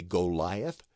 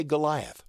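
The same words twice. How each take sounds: First: Goliath with a full long O, GO-LIE-uth; over-proper pronunciation. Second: Said in the usual way. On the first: Shown as a demonstration. Teacher showing the too-proper version, Goliath with a long O. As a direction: say GO in the first syllable of Goliath. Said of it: "If you really wanted to be proper". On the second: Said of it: "here in America? We say Goliath".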